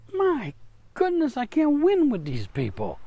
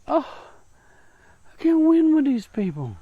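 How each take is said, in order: First: High, weary sigh of God, voice lifting on My goodness; exasperated God. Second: High, louder groan of defeat from God; exasperated God. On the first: God looking at his people, exasperated and much higher. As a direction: throw up your hands at stubborn people. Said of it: "he looks at us and goes". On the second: God looking at his people, high and loud in exasperation. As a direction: sigh as if beaten by his own people. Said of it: "God looks at us and just goes". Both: Retold or imitated.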